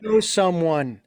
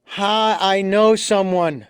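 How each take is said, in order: First: Genuine. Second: Mock caller. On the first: Real, not acted. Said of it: "No, this is genuine". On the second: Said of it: "Oh yeah, I have this friend with this problem".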